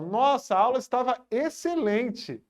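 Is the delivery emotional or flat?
emotional. It is said with strong, excited feeling. An exclamation showing emotion. "Olha a diferença"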